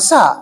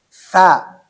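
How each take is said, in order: First: The consonant is a plain hissing s. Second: The consonant is a th with the tongue out. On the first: The speaker calls it wrong. "Bukan sa gitu kan" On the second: The speaker calls it right. "Huruf yang dua puluh delapan itu jelas"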